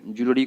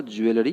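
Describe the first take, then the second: First: ज्वेलरी as "JOO-luh-ri"; ज्वेलरी compact, opening on "jool"; correct pronunciation. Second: ज्वेलरी as "joo-EL-ri"; ज्वेलरी spelt out as "ju-e-la-ri"; wrong pronunciation. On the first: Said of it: "ज्वेलरी बोलना है आपको". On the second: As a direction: say ज्वेलरी with the e sounded. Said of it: "नहीं बोल देना है". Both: Shown as a demonstration.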